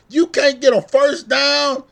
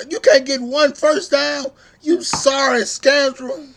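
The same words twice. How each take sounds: First: Loud, slow, higher incredulous yell; angry shout. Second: Loud, higher furious yell, slowing on the insult; angry shout. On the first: Fan yelling at quarterback, loud higher outraged shout. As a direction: bellow it at the quarterback in disbelief. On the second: Fan yelling at quarterback over his misses, furious loud shout. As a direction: hurl the insult at him, slow and loud. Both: Real, not acted.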